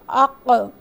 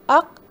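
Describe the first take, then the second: First: The final consonant releases with a short echoing sound. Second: The final consonant stops abruptly with no release. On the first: The speaker calls it right. "थोड़ा सा लिप बंद करने के बाद उसको खोलेंगे ताकि एक छोटा सा आ का साउंड जो है वो क्रिएट हो" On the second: The speaker calls it wrong. "हम इसको अक़, अत, अब, अज, अद नहीं पढ़ेंगे"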